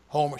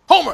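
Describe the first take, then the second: First: The name is said calmly and flatly. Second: The name is said loudly, as an exclamation. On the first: "she don't say it" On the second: "She says it like with the exclamation point"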